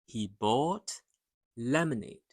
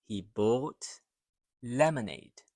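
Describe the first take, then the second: No difference in how they are said.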